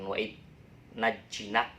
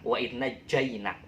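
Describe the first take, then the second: First: The middle syllable is said as 'ji'. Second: The middle syllable is said as 'jai'. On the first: The speaker calls it wrong. "nanti dimarahin oleh Pak Ustadz" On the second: The speaker calls it right. "dibacanya jainak"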